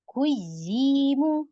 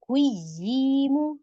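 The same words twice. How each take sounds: The two takes are said the same way.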